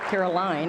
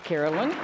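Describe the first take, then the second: First: The last syllable sounds like 'line'. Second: The last syllable sounds like 'lin'. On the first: The speaker calls it right. "the right pronunciation" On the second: The speaker calls it wrong. "I was around somebody who pronounces it Carolyn"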